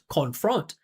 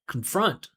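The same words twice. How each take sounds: First: The first syllable has a full, clear vowel. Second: The first syllable has no clear vowel sound. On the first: The speaker calls it wrong. "he's adding that vowel sound in there" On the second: The speaker calls it right. "you never pronounce the vowel there"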